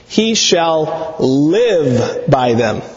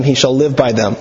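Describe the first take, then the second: First: Each word drawn out slowly and weighted; slow emphatic. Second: Said in the usual way. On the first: Acted. Preacher slowly weighting the Torah promise to his congregation. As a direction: lay the verse down slowly, word by word. God's words paraphrased with emphasis.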